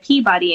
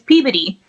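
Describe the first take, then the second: First: It is said with a plain outsider pronunciation. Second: It is said with the local Boston pronunciation. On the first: The speaker calls it wrong. "that's not how you say it" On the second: The speaker calls it right. "it's Peabody"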